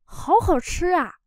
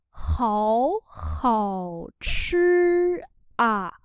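First: Said in the usual way. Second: Háo said with changed tone, hảo chư drawn out; tone change demo. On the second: Shown as a demonstration. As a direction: show tone sandhi on Háo, slowly. (đọc chậm, biến điệu Háo) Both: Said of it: "Biến điệu hảo thành khó nha".

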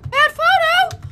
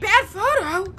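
First: Higher, incredulous question; startled, raised-pitch query; disbelief. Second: Said in the usual way. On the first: Real, not acted. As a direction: repeat it like you can't believe it. Repeats it in disbelief.

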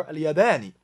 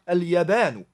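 First: اليابان ending in "-ni"; genitive ending. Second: اليابان ending in "-nu"; nominative ending. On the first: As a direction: finish اليابان on a short "i". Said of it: "属格". (属格读法：اليابان 词尾读“ni”) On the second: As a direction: finish اليابان on a short "u". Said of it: "主格". (主格读法：اليابان 词尾读“nu”) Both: Shown as a demonstration.

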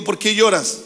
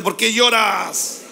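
First: Said in the usual way. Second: "¿Por qué lloras?" slowed right down, each word weighted; preacher urges the congregation to say it strongly, slowly. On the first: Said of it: "Pueden decir conmigo". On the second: Shown as a demonstration. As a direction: call it out slow and strong so all join in. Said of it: "Vamos, dígalo fuerte".

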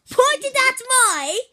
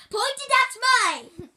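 First: Loud, slow, high exasperated yell; drawn-out shout. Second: Sharp high yell to the cameraman; shouting at cameraman. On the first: Turtle hollering at the cameraman a second time, drawn out. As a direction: stretch it out, fed up. Repeats correction, louder and slower. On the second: Kid turtle yelling at his cameraman to point the camera. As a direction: yell the correction at him. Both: Real, not acted.

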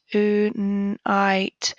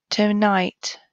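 First: Whisper. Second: Said in the usual way. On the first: Shown as a demonstration. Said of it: "whispered repeat of word". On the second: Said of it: "phonics word read aloud".

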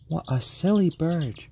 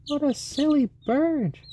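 First: Pet talk. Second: Much higher, louder sing-song pet voice. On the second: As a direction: coo up high at the bird. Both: Real, not acted. Cooing at pet chicken.

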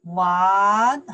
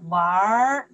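First: Said in the usual way. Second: 玩儿 with a soft r-coloured ending. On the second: Shown as a demonstration. Teacher shows learners the soft sound in 玩儿, r-coloured ending. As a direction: curl the end of 玩儿 into a soft r. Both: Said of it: "just the sounds make more soft".

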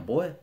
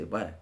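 First: Put-on careful, unaccented "Boy"; standard "boy". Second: Put-on Southern "Boy" with the final glide dropped; Birmingham-style "boy". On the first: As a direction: say "Boy" higher and firmer, with a clear oy glide. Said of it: "now instead of saying". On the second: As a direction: say "Boy" lower, the oy flattened toward "bwah". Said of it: "we'll say". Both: Shown as a demonstration.

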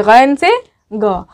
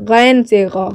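First: "गैन से ग" said slowly, each word spaced out; slow, careful repeat. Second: Said in the usual way. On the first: Shown as a demonstration. ("गैन से ग" धीरे और साफ़ दोहराएँ) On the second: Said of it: "ठीक है, गैन से ग".

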